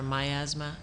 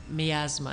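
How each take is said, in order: First: "miasma" said as my-AZ-muh, first syllable like "my"; "miasma" with a long i, asking; second try at a word. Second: "miasma" said as mee-AZ-muh, short ee in the first syllable; "miasma" starting with mee, unsure; first try at a word. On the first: Guest checks the word again, saying "miasma" as my-AZ-muh. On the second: Guest tries the word aloud, saying "miasma" as mee-AZ-muh. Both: Shown as a demonstration. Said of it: "Is that how you pronounce it?".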